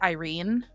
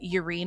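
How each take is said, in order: First: The name begins with an 'eye' sound. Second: The name begins with a 'yur' sound. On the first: This is the accepted pronunciation of the name. The speaker calls it right. "now I know it's Irene" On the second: This is the speaker's own reading of the spelling. The speaker calls it wrong. "Urine is how I pronounced it because like why are we using the Y"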